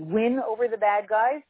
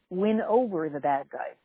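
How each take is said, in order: First: The stress falls on the word win. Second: The stress falls on the word over. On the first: The enemy is defeated and destroyed. "You can not only win over the bad guys and they're destroyed" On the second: The enemy is persuaded to join your side. "watch the inflection"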